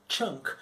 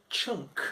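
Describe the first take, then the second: Both takes have the same delivery.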